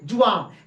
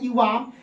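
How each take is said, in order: First: The word begins with a j sound. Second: The word begins with a y sound. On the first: "उसको आप ज पढ़ सकते हैं" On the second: "यहां पे जो लिखा गया है इवाम"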